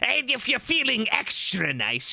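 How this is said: It is said in a put-on goblin voice.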